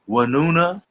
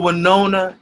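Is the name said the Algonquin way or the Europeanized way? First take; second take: Algonquin; Europeanized. First: The name is said the Lenape Algonquin way. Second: The name is said the Europeanized way. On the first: The speaker calls it right. "is the Lenape Algonquin pronunciation" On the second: The speaker calls it wrong. "that's the Europeanized uh, pronunciation"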